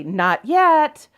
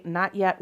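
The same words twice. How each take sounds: First: Raised, higher, louder "Not yet" with a falling end; firm refusal. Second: "Not yet" said kindly in a level voice; a gentle, patient "Not yet"; nice. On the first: Telling the impatient man at the auction she's not done, raised and firm. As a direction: shut him down: "yet" hits hard and drops. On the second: First telling the waiting man she's not done, nice and level. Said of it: "once, nice". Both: Retold or imitated.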